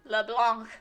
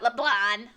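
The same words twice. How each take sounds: First: The name is said with a French pronunciation. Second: The name is said with an anglicized pronunciation. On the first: This is the correct pronunciation. The speaker calls it right. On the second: This is how English voice actors say it. The speaker calls it wrong.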